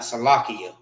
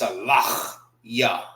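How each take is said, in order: First: The word is said quickly and run together. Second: The word is said slowly with each syllable clear. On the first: The speaker calls it wrong. "It's not Salakia" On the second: The speaker calls it right. "It's Salachya. That's how you properly say it"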